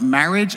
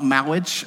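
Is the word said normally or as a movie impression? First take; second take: normally; impression. First: It is said in his normal voice. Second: It is said imitating the popular movie's way.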